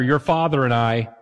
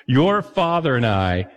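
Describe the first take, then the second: First: Said in the usual way. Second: Slow, weighted "Your father and I" with stress on "Your"; ominous parent phrase. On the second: Shown as a demonstration. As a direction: lean on "Your" like a warning parent. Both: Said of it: "Usually nothing good happens after".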